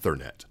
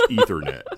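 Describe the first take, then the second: First: It is said with a British pronunciation. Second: It is said with an American pronunciation. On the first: The speaker calls it wrong. "They also say Ethernet" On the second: The speaker calls it right. "It's Ethernet"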